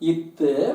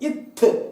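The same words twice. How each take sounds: First: The consonant is plain, without extra force. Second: The consonant is said with extra force.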